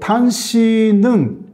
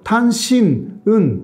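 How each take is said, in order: First: The final consonant runs smoothly into the next syllable. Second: The word is cut before the last syllable. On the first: The speaker calls it right. "그런 식으로 연음이 되잖아요" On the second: The speaker calls it wrong. "일본 사람들은 그거 좀 모르거든요 ... 이런 식으로 이야기를 해요"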